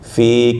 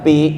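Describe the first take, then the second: First: The word begins with an f sound. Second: The word begins with a p sound. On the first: The speaker calls it right. "bukannya pi, tapi apa? Fa" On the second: The speaker calls it wrong. "bukannya pi"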